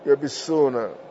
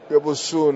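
First: The vowel after the b is i. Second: The vowel after the b is u. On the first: "في رواية يحيى بن يحيى بكسر الموحدة" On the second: "وقيل إن ابن القاسم رواه بضمها"

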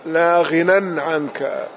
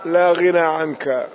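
First: The word ends with an added n sound. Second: The word ends in a long vowel, no n. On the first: "ورويناه بالتنوين أيضا" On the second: "بقصر بلا تنوين"

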